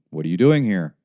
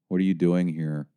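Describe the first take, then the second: First: It is said in a less menacing way. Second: It is said in a menacing way.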